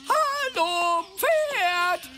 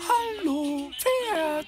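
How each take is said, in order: First: It is said loudly. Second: It is said quietly.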